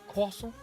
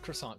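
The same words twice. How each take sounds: First: It is said with an attempted French pronunciation. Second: It is said with an ordinary English pronunciation. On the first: "I don't speak French, so I guarantee I butchered the fuck out of that pronunciation there" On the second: "that's what it's called, croissant queen. You know, because we're English"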